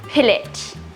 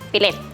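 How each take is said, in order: First: It is said in a British accent. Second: It is said in a Bisaya accent.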